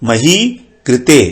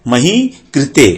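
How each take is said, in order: Both takes have the same delivery.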